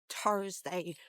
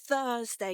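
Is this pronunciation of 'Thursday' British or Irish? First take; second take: Irish; British. First: Said with the Irish 't'-like sound. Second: Said with the British 'th' sound. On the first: The speaker calls it wrong. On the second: The speaker calls it right.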